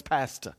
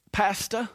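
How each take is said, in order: First: "pasta" with a dropped r; Cajun pasta. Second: "Pasta" with a dropped r, Cajun style. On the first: Pastor repeating how the sick church member said it. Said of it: "That's how she said it". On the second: Pastor imitating a church member saying "Pasta" the Cajun way. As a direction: say "Pasta" like a Creole lady, no r at the end. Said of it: "she had a little bit of a Cajun accent, Creole accent". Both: Retold or imitated.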